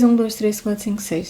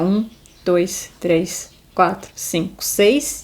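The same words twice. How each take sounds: First: The numbers are counted quickly. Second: The numbers are counted slowly.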